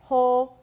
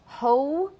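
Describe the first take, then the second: First: The vowel stays on one steady sound. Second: The vowel glides from one sound to another. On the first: The speaker calls it wrong. "if it were a monophthong, it would sound funny to my ears" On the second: The speaker calls it right. "For me, it is a diphthong"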